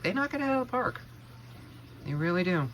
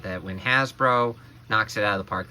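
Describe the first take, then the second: First: High, enthusiastic emphasis; emphatic excited. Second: Said in the usual way. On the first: Real, not acted. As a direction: punch it with enthusiasm. Emphatic payoff of the repeat.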